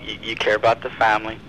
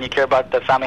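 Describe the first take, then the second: First: The voice is lowered and quieter. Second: The voice is at normal, plain volume. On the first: The speaker is close and personal. The speaker calls it right. "I kind of lower my voice a little bit" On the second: The speaker is distant and impersonal. The speaker calls it wrong. "I don't just walk in there and say"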